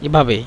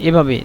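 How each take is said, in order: No difference in how they are said.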